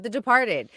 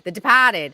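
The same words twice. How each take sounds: First: Said in the usual way. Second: Loud Boston "Departed" with no R; Boston accent. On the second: Shown as a demonstration. Guest mocking the film's title, R-less Boston accent. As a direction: say "Departed" as "De-pah-ted", Boston style.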